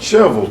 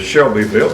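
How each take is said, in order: First: It is said the way Tennessee locals say it. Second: It is said the way outsiders say it. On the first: "but we pronounce it" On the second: "You would pronounce that here"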